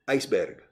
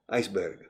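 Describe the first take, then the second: First: It is pronounced the way Latin Americans say it. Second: The same.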